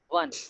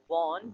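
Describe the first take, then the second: First: The word sounds exactly like the number one. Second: The word does not sound like the number one. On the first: The speaker calls it right. "but one" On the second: The speaker calls it wrong. "The pronunciation is not won"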